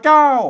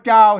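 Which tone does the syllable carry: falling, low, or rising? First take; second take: falling; low. First: The syllable is said with a falling tone. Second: The syllable is said with a low tone. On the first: "เสียงโท" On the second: "เสียงเอก"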